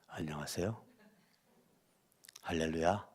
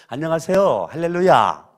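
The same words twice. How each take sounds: First: It is said on a low, flat pitch. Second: It is said on a high, bright pitch.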